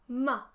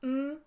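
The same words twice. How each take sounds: First: A short vowel follows the consonant sound. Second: The consonant sound is held with no vowel. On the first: The speaker calls it wrong. "A schwa is when you use a at the end of a sound that doesn't require it" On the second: The speaker calls it right. "which should be m"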